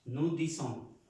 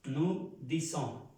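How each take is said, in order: First: Said in the usual way. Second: "Nous disons" drawn out slowly, "nu dizon"; teacher slowly models "Nous disons" for the class; slow demo. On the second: Shown as a demonstration. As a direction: spell it out slowly, syllable by syllable. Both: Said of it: "Aquí me faltó una letra".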